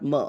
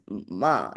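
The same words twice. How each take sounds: First: The vowel is kept short. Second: The vowel is held long. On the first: The speaker calls it wrong. "not ma" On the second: The speaker calls it right. "ma has a line because ma, it is ma"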